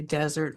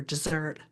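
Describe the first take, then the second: First: DESert, weight on the first syllable; desert stressed at the front, second syllable weak. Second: DesSERT, weight on the last syllable; dessert with the second syllable punched; stress on second syllable. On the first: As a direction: punch the opening syllable of desert. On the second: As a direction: keep dessert weak at the front, stressed at the end. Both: Shown as a demonstration. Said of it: "different words because of the accent".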